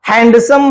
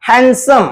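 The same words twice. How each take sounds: First: The d sound is pronounced clearly. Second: The d sound is pronounced clearly.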